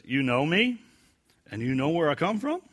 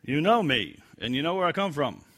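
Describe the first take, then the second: First: "You know me" and "from" both rising like a question; rising question tune. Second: "know" and "come" falling flat as a statement; falling statement tune. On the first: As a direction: ask it, rising at the end. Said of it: "Translate this as a question". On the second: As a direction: state it plainly, falling at the end. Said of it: "other translations say what". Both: Shown as a demonstration.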